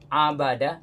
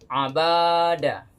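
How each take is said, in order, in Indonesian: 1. Semua vokalnya pendek. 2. Vokal suku kata tengah dipanjangkan. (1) "Ini tidak ada yang panjang" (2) "maka salah bacanya. ... banyak kita tadi panjangkan"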